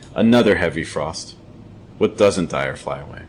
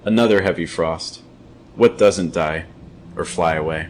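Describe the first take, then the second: First: It pauses only after frost, then runs on. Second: It pauses after frost and again after die. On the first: "Second time, two thought groups" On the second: "First time, three thought groups"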